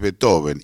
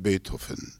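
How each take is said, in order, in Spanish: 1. Se pronuncia con sonidos típicos del español. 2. Se pronuncia de forma cercana al alemán original. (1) "Para nosotros es Beethoven" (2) "o aproximado. Y eso es una exageración"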